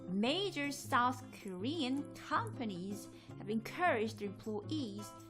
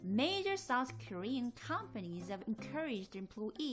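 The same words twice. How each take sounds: First: It is read at a normal, steady pace. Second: It is read at a noticeably faster pace.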